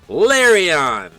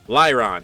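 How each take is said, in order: First: The name is said with three syllables, 'Lar-i-on'. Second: The name is said with two syllables, 'Ly-ron'. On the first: The speaker calls it wrong. "I've always said Larion" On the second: The speaker calls it right. "Lyron, technically"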